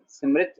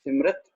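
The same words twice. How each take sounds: First: सिमरित said sim-rit; correct pronunciation. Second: सिमरत said sim-rat; wrong pronunciation. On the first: Teacher confirming the right reading, सिमरित ending rit. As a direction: put a short i before the final t of सिमरित. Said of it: "सिमरित सही उच्चारण होगी". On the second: Teacher repeating the faulty reading, सिमरत ending rat. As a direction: put a short a before the final t of सिमरत. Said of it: "सिमरत गलत उच्चारणता हो जाएगी". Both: Shown as a demonstration.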